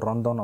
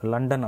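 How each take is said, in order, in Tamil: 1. இந்த வார்த்தை R ஒலியில் தொடங்குகிறது. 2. இந்த வார்த்தை L ஒலியில் தொடங்குகிறது. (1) "ரொந்தோன் அப்படின்னு தான் வந்து படிப்பாங்க" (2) "லண்டன் அப்படின்றது"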